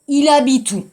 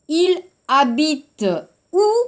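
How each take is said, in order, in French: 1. La voyelle finale de habite est supprimée et liée. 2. La voyelle finale de habite est prononcée séparément. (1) "Voyelle, E, schlack, hein? 삭제"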